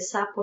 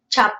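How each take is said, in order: First: The word begins with an S sound. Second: The word begins with a CH sound. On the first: The speaker calls it right. "no dice sapo" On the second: The speaker calls it wrong. "sino dice chapo"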